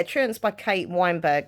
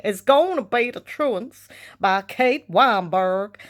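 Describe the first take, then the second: First: Said in the usual way. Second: Slow, exaggerated American drawl; put-on American voice, stretched out slowly; American accent. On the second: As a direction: ham up an American accent, drawing out every word. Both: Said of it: "I put on an American accent".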